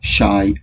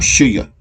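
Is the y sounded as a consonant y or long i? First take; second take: long i; consonant y. First: The y is sounded as a long i. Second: The y is sounded like the y in yes. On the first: The speaker calls it right. "We say ... the sound of these is long I" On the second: The speaker calls it wrong. "We do not say"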